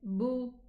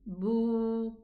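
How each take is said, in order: First: The vowel is short. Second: The vowel is long. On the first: "we are going to say boo short" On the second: "we are going to extend the dhamma pronunciation"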